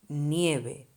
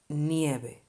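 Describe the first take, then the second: Both takes have the same delivery.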